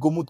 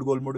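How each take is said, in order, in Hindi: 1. नाम में कोई L की ध्वनि नहीं बोली जाती है। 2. नाम में L की ध्वनि बोली जाती है। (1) "गोमुद गोमुद कहते हैं उसको। एल साइलेंट है" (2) "मैं गोलमुड गोलमुड करता हूँ, तो गोलमुड नहीं है एक्चुअल में"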